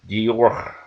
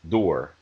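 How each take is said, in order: First: It has an exaggerated, forced French pronunciation. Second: It has a relaxed, plain English pronunciation. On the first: The speaker calls it wrong. "that just kind of seems forced and, and over emphatic" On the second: The speaker calls it right. "I would prefer um, pronunciations like"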